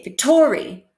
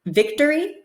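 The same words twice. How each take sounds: First: "victory" as vic-TOR-y; stress on middle syllable. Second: Said in the usual way. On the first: Shown as a demonstration. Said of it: "Do we say victory". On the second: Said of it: "which sounds more natural".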